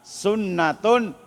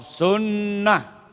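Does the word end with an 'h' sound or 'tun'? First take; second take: tun; h. First: The word ends with a full 'tun' syllable. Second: The word ends with a short 'h' sound.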